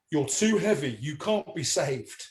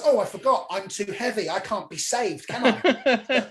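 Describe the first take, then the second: First: Slow, falling pronouncement; solemn verdict. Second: Sarcastic wife. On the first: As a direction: deliver it slowly and gravely, as a retold sleep-talker. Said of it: "I said". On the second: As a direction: throw it back at him as the offended wife. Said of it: "then she goes". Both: Retold or imitated.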